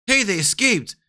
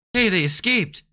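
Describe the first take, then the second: First: A different guard, high loud shout; alarmed shout, other guard. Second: Loud, high shout of alarm. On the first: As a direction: another guard yelling the alarm. Second guard calls alarm. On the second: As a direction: yell that the prisoners escaped. Guards raise alarm. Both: Acted.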